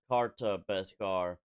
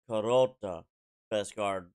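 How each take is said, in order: First: The first word is said with two syllables. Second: The first word is said with three syllables. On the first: The speaker calls it wrong. "it's not pronounced Karta Beskar" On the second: The speaker calls it right. "It's Karota Beskar"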